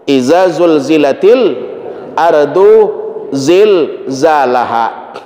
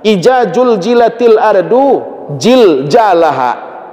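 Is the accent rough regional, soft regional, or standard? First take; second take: standard; rough regional. First: It is read with standard pronunciation. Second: It is read in a rough regional accent. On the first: "Itu bacaannya" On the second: "agak kasar bahasanya. ... Berubah jadi jim semuanya"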